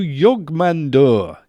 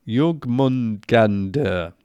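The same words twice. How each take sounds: First: Jogmandur, name said wrongly and clipped short before the fix; rushing Jogmandur with a slip, syllables missing; misspoken name. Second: Jogmungandur said slowly, every syllable laid out; careful correction. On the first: Real, not acted. Viewer hears the mangled serpent name, plain slip. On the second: Shown as a demonstration. Fixing the serpent's name for viewers, slow careful correction. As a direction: spell out Jogmungandur deliberately, slowly.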